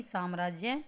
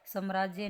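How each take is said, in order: First: साम्राज्य said as "saamraajya"; long first "aa" in साम्राज्य; correct pronunciation. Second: साम्राज्य said as "samraajya"; short first "a" in साम्राज्य; wrong pronunciation. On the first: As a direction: clear saam-raaj-ya for साम्राज्य. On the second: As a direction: misread साम्राज्य as sam-raaj-ya. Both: Shown as a demonstration. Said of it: "साम्राज्य नहीं".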